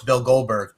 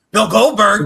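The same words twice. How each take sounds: First: Said in the usual way. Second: High loud incredulous echo; mock disbelief. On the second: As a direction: say the name as if it can't be true. Mock incredulous repeat of name.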